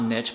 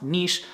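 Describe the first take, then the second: First: Niche said as "nitch"; niche rhyming with pitch; rejected pronunciation. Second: Niche said as "neesh"; niche rhyming with leash; commenter's pronunciation. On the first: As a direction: say niche with a short i and tch. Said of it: "it's pronounced niche and". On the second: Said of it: "saying that it's pronounced niche". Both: Shown as a demonstration.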